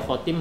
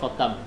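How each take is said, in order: First: The second syllable has the vowel i. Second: The second syllable has the vowel a. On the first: "boleh dibaca khotim" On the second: "boleh dibaca khotam"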